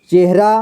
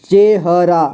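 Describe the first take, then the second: First: Said in the usual way. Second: चेहरा split as चे, ह, रा; syllable by syllable. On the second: Shown as a demonstration. Teacher showing learners चेहरा, sounded out in parts. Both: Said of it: "इसे पढ़ेंगे".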